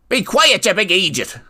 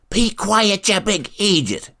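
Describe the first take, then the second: First: It is said loudly, as a yell. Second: It is said quietly, as a hushed shush. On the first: "yelled Habon" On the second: "repeated herself in a quieter tone of voice"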